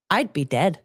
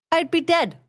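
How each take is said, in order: First: Said in the usual way. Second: High-pitched disbelief; incredulous exclamation. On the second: Acted. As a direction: exclaim it high, aghast at the very idea.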